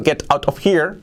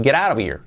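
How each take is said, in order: First: "Get out of here" word by word, higher; full t's in "Get out", no linking; textbook English. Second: "Get out of here" fused as "gerara vir"; native connected speech. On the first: Teacher shows what you have learned, textbook "Get out of here". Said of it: "tú has aprendido". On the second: Teacher imitates what a native will tell you, linked "Get out of here". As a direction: tap the t's and link all of "Get out of here". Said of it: "un nativo te va a decir". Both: Shown as a demonstration.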